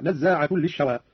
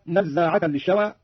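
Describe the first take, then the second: First: نزاعة said nazzaatun with a u ending; nominative ending. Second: Said in the usual way. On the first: Shown as a demonstration. Teacher demonstrates the nominative نزاعة. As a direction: end نزاعة on -tun into للشوى. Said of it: "هكذا". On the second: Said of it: "قرأ قالون برفع نزاعة".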